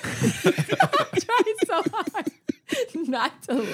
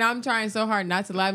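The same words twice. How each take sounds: First: Very high, drawn-out strangled squeak; holding back laughter. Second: Said in the usual way. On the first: Retold or imitated. Delirious teen beside a snoring lady, stifling laughter. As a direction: squeeze it out while fighting a laugh.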